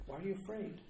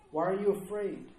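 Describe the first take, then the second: First: Much softer, hushed question; tender appeal. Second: Said in the usual way. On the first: Acted. Preacher to the fearful after the resurrection, tender hushed appeal.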